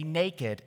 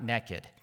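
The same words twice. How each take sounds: First: The word is said in the standard way. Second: The word is said in a Southern way. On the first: The speaker calls it right. "say naked" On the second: The speaker calls it wrong. "not naked"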